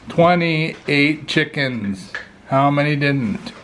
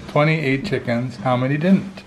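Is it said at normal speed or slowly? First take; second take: slowly; normal. First: It is said slowly and deliberately. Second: It is said at normal speed.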